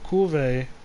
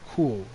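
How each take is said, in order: First: The final e is sounded as a vowel. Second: The final e is silent, like curve. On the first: The speaker calls it wrong. "Not Kulve" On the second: The speaker calls it right. "The proper pronunciation would be Kulve, kind of like curve"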